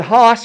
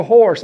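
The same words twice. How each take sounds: First: "hoss" with no r, for horse; mother's "hoss". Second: Said in the usual way. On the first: Retold or imitated. Quoting mother's word for horse, r-less "hoss". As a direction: say "hoss" r-less, New England style. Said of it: "She said "hoss" for horse". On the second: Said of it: "hoss" for horse".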